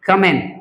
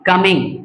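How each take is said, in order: First: The word ends in n with no g. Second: The word ends with a g sound. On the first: The speaker calls it right. "जी नहीं बोलना है" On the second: The speaker calls it wrong. "Not कमिंग"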